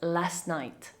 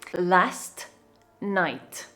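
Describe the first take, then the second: First: The t at the end of 'last' is dropped. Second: The t at the end of 'last' is pronounced.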